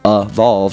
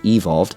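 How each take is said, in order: First: The first vowel is reduced to schwa. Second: The first vowel is a full, unreduced vowel. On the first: "to be everywhere" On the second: "instead of"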